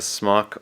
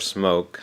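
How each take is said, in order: First: The vowel is short, rhyming with clock. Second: The vowel is long, rhyming with joke. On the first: This is how the speaker says the name. "I say Smock" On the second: This is how some other people say the name. "Some people pronounce it differently"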